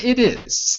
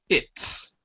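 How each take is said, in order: First: It is said as two separate full words. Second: It is said as one contracted syllable. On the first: The speaker calls it wrong. "Not it is" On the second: The speaker calls it right. "Say it like this"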